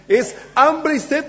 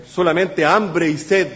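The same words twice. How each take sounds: First: "hambre y sed" drawn out and pitched high; emphatic hunger and thirst. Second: Said in the usual way. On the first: Shown as a demonstration. Recalca el sentido más profundo. ("hambre y sed" recalcado, alargado y agudo)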